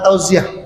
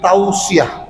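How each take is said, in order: First: The middle consonant is a buzzing z sound. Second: The middle consonant is a hissing s sound. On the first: The speaker calls it wrong. "Bukan tauziah" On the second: The speaker calls it right. "tapi tausiah, sot"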